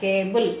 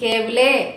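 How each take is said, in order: First: The word ends on the L sound. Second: An extra vowel is sounded after the L. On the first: The speaker calls it right. "కేబుల్ అంతే" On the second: The speaker calls it wrong. "కేబులే అనట్లా"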